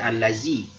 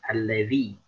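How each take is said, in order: First: The middle consonant is a plain z sound. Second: The middle consonant is a soft dh sound. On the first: The speaker calls it wrong. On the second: The speaker calls it right.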